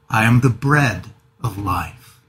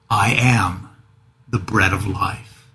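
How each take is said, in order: First: The stress is on bread. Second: The stress is on I am.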